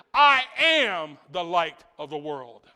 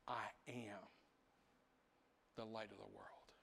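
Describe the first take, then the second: First: Slow, loud proclamation; Jesus crying out. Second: Quiet invitation. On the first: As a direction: call it out over the crowd. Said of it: "He cries out and he says". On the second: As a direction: say it like a gentle invitation. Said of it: "he backs up there and he says". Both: Retold or imitated.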